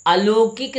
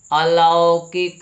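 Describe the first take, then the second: First: अलौकिक with "o", as "a-lo-kik", high; slow, high अलौकिक with round "o"; mispronounced अलौकिक. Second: अलौकिक with a wide "au", very slow and loud; drawn-out "lau" in अलौकिक; corrected pronunciation. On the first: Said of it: "अलौकिक नहीं". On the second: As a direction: say अलौकिक as "a-LAA-O-kik". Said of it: "शुद्ध क्या है". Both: Shown as a demonstration.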